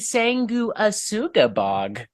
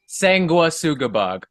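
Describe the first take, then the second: First: The name is spaced out in a put-on voice. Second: The name is said in a plain, natural voice. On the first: The speaker calls it wrong. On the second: The speaker calls it right.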